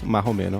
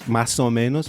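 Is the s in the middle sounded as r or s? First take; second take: r; s. First: The s is replaced by an r sound. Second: The phrase keeps its s sound before the o.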